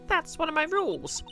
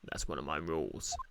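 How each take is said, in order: First: It is said in a squeaky helium voice. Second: It is said in a normal voice. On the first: The speaker calls it right. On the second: The speaker calls it wrong.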